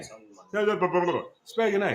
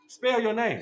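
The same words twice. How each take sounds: First: Slow drawn-out taunt. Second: Said in the usual way. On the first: Real, not acted. Man taunting friend who can't read, very slow and drawn out. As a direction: stretch each word out very slowly.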